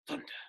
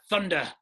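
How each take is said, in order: First: The word is whispered quietly. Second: The word is said loudly.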